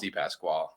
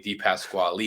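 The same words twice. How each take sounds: First: The name ends without a final vowel sound. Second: The name ends with a sounded final vowel. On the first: This is how the family says it now. "but it's pronounced Di Pasquale" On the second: This is the original Italian pronunciation. "Di Pasquale is the correct pronunciation of the name"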